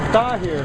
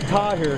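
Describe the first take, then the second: First: The first sound is a TH-like T. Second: The first sound is a plain English T. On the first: The speaker calls it right. "but it's Tahir, I think. You know, T H sound" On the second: The speaker calls it wrong. "we would used to pronounce it Tahir"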